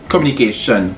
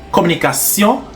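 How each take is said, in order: First: It is pronounced the English way. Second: It is pronounced the French way.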